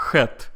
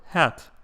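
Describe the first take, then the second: First: Russian-accented "hat" as khet. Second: Said in the usual way. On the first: Shown as a demonstration. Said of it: "A Russian person would say". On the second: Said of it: "for hat".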